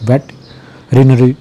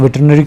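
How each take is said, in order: First: The word is said split into two parts. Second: The word is said in one quick run. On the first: This is the more correct way to say it. The speaker calls it right. "थोड़ा सही तरीके से pronounce कर सकते हैं दो हिस्सों में" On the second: This is how people usually say it. The speaker calls it wrong. "वैसे इसको वेटरनरी कहते हैं"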